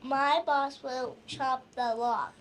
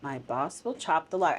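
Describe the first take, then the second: First: My boss, then a pause; My stressed, a pause after boss. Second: My boss, pause, will chop the log; softer echo, stress on will; teacher echoes with pause. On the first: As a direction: stress my and pause before will. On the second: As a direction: repeat it with the pause after boss. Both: Shown as a demonstration. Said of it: "I like how you said "my boss," and you put kind of a pause in there".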